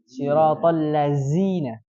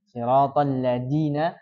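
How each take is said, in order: First: The consonant in ladzina is a plain z. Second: The consonant in ladzina is a plain d. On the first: "atau enggak zai" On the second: "Mengganti za menjadi da"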